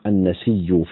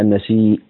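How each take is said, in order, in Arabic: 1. تنتهي بياء مشددة دون همزة. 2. تنتهي بهمزة واضحة. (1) "يقرأ بالإدغام في لفظ النسيء أبو جعفر والأزرق" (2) "وبقية القراء بالهمزة هكذا"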